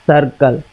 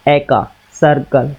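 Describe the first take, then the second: First: सर्कल repeated quickly and lightly, low; teacher repeats सर्कल once more for the class, lightly; quick repeat of demo. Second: सर्कल said low and slow, each sound clear; teacher models सर्कल for his pupils, slow and careful; careful demo pronunciation. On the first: Teacher says सर्कल again for pupils, quick and light. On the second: Teacher shows pupils how सर्कल sounds, slow and clear. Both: Shown as a demonstration. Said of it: "इसको एक बार बोल करके देखिए आप".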